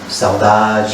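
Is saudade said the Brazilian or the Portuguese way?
Brazilian. It is said the Brazilian way, sounding uplifted. The longing is felt but celebrated and overcome. "it's pain, but let's celebrate and somehow overcome it"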